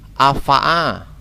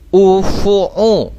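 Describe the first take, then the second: First: The word is read with a vowels throughout. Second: The word is read with u vowels throughout. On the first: "Atau afa'a" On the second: "tidak boleh kita baca misalnya ufu'u"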